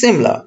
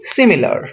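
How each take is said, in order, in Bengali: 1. মাঝের স্বরধ্বনিটি বাদ যায়, তাই দুটি শব্দাংশ হয়। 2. মাঝের স্বরধ্বনিটি থাকে, তাই তিনটি শব্দাংশ হয়। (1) "এরকম কিছু একটা" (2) "আমরা বলি সিমিলার"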